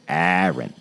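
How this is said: Aaron is said with an East Coast US accent.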